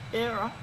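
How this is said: It sounds sincerely agreeing.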